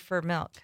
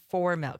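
First: The word 'for' is reduced to 'fur'. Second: The word 'for' is pronounced in full. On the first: "the fur" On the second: "not for milk"

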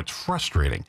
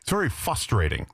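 First: The R after the F is clearly pronounced. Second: The R after the F is missing. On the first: The speaker calls it right. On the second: The speaker calls it wrong. "the guy said"

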